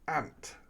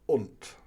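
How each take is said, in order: First: The vowel rhymes with shank. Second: The vowel rhymes with shunt. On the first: This is the southern regional way. "down south, they say ant ... more rhymes with shank" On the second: This is the speaker's own regional way. "you know how it's pronounced. Unt. ... that rhymes with shunt"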